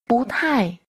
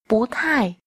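No difference in how they are said.

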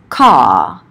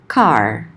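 First: The word ends without any R sound. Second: The word ends with an audible R sound. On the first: This is how British English says it. "will be pronounced as car without the R at the end" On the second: This is how American English says it. "even word final and post-vocalic R will be pronounced"

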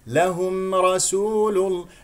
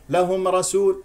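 First: The m sound is pronounced clearly. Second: The m sound is swallowed and barely heard. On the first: The speaker calls it right. "الميم هنا ساكنة إظهار" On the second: The speaker calls it wrong. "لا تأكل الميم"

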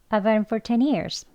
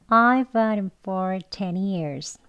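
First: The sentence is spoken at a fast pace. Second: The sentence is spoken at a slow pace. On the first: "빨리 더 해볼게요" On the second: "천천히 해볼게요"

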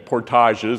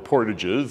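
First: It is pronounced with a French pronunciation. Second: It is pronounced with an anglicized pronunciation. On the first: "as the French said" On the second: "as we have anglicized it"

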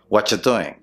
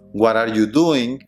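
First: The words run together into one reduced chunk. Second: Each word is said separately.

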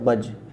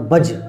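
First: The final consonant is released softly, without a bounce. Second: The final consonant is released hard, with a bounce. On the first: The speaker calls it wrong. "एक है आप इसको ऐसे पढ़ें" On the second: The speaker calls it right. "ये ज़रा उम्दा तरीक़ा है"

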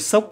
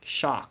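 First: It is said with a Vietnamese pronunciation. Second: It is said with an English pronunciation. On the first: The speaker calls it wrong. "Nói theo kiểu Việt Nam" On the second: The speaker calls it right. "Đúng ra phải là"

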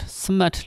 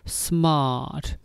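First: The vowel is short and clipped. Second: The vowel is drawn out long. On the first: The speaker calls it wrong. "Smart လို့မဆိုပါဘူး" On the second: The speaker calls it right. "A နဲ့ R နဲ့တွေ့လို့ရှိရင်အတန်လေးရရှည်ရှည်လေးဆွဲလိုက်"

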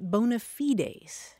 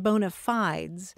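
First: It is said the classical Latin way. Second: It is said another usual American English way. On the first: "in Latin, you pronounce it" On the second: "usually the pronunciations heard in the United States"

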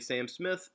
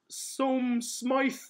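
First: The name is pronounced just as it is spelled. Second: The name is pronounced unlike its spelling. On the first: The speaker calls it wrong. "I will say his name wrong. I will say Sam Smith" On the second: The speaker calls it right. "it's not Sam Smith. It's Som Smythe"

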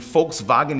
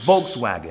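First: It is said with a German pronunciation. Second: It is said with an English pronunciation. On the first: "tem Volkswagen em alemão" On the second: "mas é Volkswagen"

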